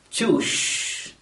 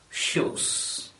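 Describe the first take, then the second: First: The word begins with a ch sound. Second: The word begins with an sh sound. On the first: The speaker calls it wrong. "pronounce the word as choosh" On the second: The speaker calls it right. "instead of shoes"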